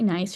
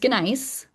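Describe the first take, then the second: First: The word begins with a silent G. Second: The word begins with a sounded G. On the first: The speaker calls it right. "which I should say nice, you're not supposed to pronounce the G" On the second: The speaker calls it wrong. "but I can't, I can't do it"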